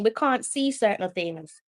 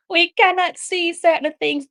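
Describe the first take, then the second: First: Said in the usual way. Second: "cannot" said as two full words, pitched up; mock-quote, punch the word "cannot"; stress on cannot. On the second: Shown as a demonstration. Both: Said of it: "Ask Arsene Wenger, he will tell you".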